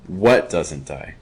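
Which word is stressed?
what. The stress is on "what".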